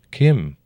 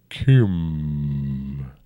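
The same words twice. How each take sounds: First: Said in the usual way. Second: Put-on a rumbling old dragon. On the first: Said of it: "I answered". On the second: A narrator's reading. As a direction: roll the name out like a great dragon. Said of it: "rumbled the dragon".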